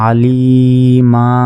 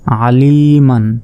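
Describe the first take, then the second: First: The word ends with a long open vowel. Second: The word ends with an n sound. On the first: The reader stops on this word. "ওয়াকফ করলে আলিমা এক জবর বাদ যাবে" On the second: The reading continues past the word. "মিম দুই জবর মান"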